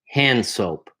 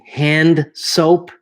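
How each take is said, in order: First: The D is almost silent and the words join. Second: The D is pronounced with an extra vowel after it. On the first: The speaker calls it right. "I'm not really pronouncing the D here. It's almost silent" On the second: The speaker calls it wrong. "it sounds like I'm saying handa soap, and that's not correct"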